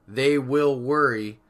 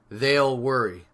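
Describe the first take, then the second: First: Will is said as a separate full word. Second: Will is shortened and joined onto they. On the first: "instead of saying something like" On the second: "we can shorten it by saying"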